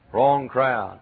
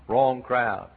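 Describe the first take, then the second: No difference in how they are said.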